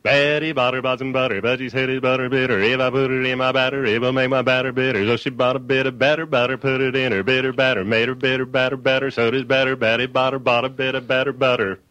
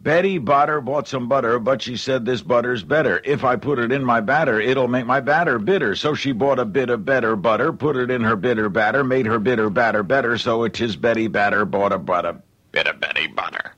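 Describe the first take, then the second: First: Quick auctioneer rattle through the twister; fast rhythmic. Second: Plain. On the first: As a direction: rattle it off fast in a steady beat. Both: Shown as a demonstration. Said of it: "Here's what it sounds like pretty fast".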